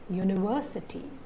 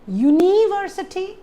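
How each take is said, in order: First: The stress falls on the syllable 'ver'. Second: The stress falls on a syllable other than 'ver'. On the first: The speaker calls it right. "You just have the stress on ver" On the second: The speaker calls it wrong. "Do you say it as university or university? No"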